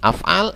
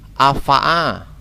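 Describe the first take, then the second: First: The word is read with two a vowels. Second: The word is read with a vowels throughout. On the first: The speaker calls it right. "Harus mengikuti wazannya ini. Af'al" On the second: The speaker calls it wrong. "Atau afa'a"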